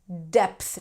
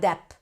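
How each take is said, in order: First: The word ends with a th sound. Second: The word ends without a th sound. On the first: The speaker calls it right. "Depth, not dep" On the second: The speaker calls it wrong. "not dep"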